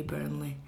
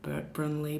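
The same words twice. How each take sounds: First: Said in the usual way. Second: "Brunley" with the r before the u, bru-nley; old name Brunley. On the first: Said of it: "changed to Burnley". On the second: Shown as a demonstration. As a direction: say "Brunley" as the old form, r moved forward. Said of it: "Burnley was actually Brunley".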